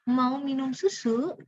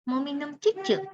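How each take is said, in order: First: The last word starts with an s sound. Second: The last word starts with a ch sound. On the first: It is clear, proper speech. The speaker calls it right. "Mau minum susu, bukan cucu" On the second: It is cutesy baby talk. The speaker calls it wrong.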